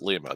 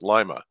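First: It is said the way outsiders would expect. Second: It is said the way locals say it. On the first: This is how outsiders would say the town name. The speaker calls it wrong. "they don't pronounce it Lima" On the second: This is how locals say the town name. The speaker calls it right. "They pronounce it Lima"

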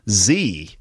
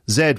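First: The letter is said the American English way. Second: The letter is said the British English way. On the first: "they call it in American English" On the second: "we call it in British English"

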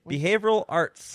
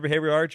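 First: The phrase is said slowly and carefully. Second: The phrase is said quickly and runs together. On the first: "Even when you said it slowly" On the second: "I said that wrong again"

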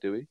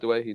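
First: The name is said as 'Dewey'. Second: The name is said as 'Dwayhe'. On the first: This is how the name used to be said. The speaker calls it wrong. "not a Dewey" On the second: This is how the player now says his name. The speaker calls it right. "who's now a Dwayhe"

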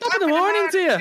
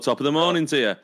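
First: It is said in a high-pitched voice. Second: It is said in a normal voice.

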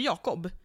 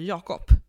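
First: The name ends with a b sound. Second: The name ends with a p sound. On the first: "Jag säger inte Jakob" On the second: "Jag säger Jakob med P absolut"

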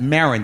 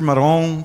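First: The name is said with an English pronunciation. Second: The name is said with a French pronunciation. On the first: "How would you pronounce that? Marin. There's no other way to pronounce that" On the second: "the French mispronunciation of my name"

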